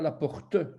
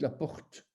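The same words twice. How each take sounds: First: The final e of porte is pronounced aloud. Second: The word ends on the t, e silent. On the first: The speaker calls it wrong. "vous ne dites pas la porte" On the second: The speaker calls it right. "on entend votre T, mais on n'entend pas le E"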